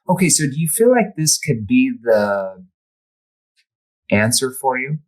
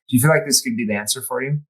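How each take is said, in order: First: The question is asked slowly and deliberately. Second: The question is asked quickly, without slowing.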